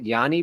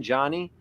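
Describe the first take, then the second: First: The name begins with a Y sound. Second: The name begins with a J sound. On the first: The speaker calls it right. "Is it Yanni Brito?" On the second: The speaker calls it wrong. "Are we saying it correctly when we say Johnny?"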